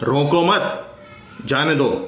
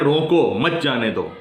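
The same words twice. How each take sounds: First: There is a pause right after 'mat'. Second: There is a pause right after 'roko'. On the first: The listener is told to let the person go. "यहां पर जाने के लिए कहा गया है" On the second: The listener is told to stop the person. "यहां पर रुकने के लिए कहा गया है"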